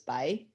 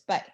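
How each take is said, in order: First: It is said with a rising tone. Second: It is said with the fourth tone. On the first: "this rising tone is, uh, this, I'd pronounce this by" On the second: "and then four is by"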